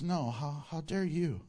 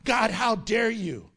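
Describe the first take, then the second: First: Lower, softer, measured rebuke; God answering back. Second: Indignant challenge, acted out; mock angry world. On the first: Acted. God answers the angry world, in a low restrained rebuke. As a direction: turn the challenge back quietly. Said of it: "And God says". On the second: The world confronts God, acted anger. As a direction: act out a touch of outrage. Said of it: "The world is angry and says to God".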